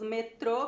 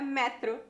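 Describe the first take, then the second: First: It is said the Brazilian way, stressing the end. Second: It is said the Portuguese way, stressing the start.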